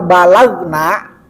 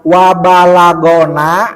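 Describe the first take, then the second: First: No vowel follows the gh sound. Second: A short a vowel follows the gh sound. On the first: We have reached something. "berarti na-nya pelaku" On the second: Something has reached us. "go-nya di, di fathah ya"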